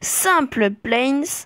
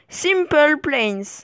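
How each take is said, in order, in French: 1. Il est prononcé avec un accent semi-français. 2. Il est prononcé avec un accent anglais. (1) "avec un accent semi-français" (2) "et avec un accent anglais"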